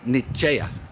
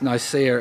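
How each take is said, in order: First: The name is said with an Italian pronunciation. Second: The name is said with an English pronunciation. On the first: "the real way to say it is Nicea" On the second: "the way we pronounce Nicaea is the English pronunciation"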